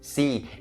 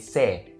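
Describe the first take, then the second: First: The syllable ends with a long E vowel. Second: The syllable ends with a short A vowel. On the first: The speaker calls it right. "It ends with that long E sound" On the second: The speaker calls it wrong. "don't ever turn it into the short A sound and say se"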